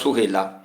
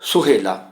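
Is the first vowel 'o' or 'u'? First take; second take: u; o. First: The first syllable has a 'u' vowel. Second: The first syllable has an 'o' vowel. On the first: This is the word as normally written. "ਸੱਸੇ ਦੀ ਔਂਕੜ ਨਾਲ" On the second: The extra vowel mark keeps the verse meter. "ਫਾਲਤੂ ਓੜਾ ਵੀ ਲੱਗਾ ਤੇ ਪਾਠ ਹੋਏਗਾ"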